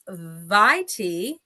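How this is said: The word is said the American way. "if you're American"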